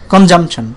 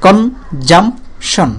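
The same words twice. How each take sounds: First: Said in the usual way. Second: consumption very slowly as কন... জাম... শন; long gaps between কন, জাম and শন; three separate beats. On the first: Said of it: "তিনটা অংশে বাড়ি খাচ্ছে". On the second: Shown as a demonstration. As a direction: break consumption into three isolated syllables. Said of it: "তিনবার বাড়ি খায় এটা".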